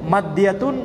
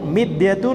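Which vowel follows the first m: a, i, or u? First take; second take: a; i. First: The first vowel is an a sound. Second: The first vowel is an i sound.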